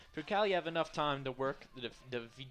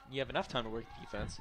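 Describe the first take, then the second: First: Tripping over the words; tongue-tied stumble. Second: Said in the usual way. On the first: Real, not acted. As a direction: stumble and cut off mid-word. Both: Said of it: "having a bit of a spell there".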